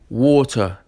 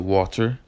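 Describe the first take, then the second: First: The name is said in a British-style accent. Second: The name is said in a plain accent.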